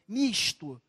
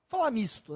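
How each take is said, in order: First: The s is a hushing sh sound. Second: The s is a plain hissing sound. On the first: It marks a regional way of speaking. "Que o carioca fala S, som de X" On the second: It is the more neutral way of speaking. "É melhorzinho"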